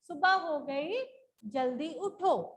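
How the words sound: A pause separates the two sentences. "इन दोनों वाक्यों में पॉज देने के लिए"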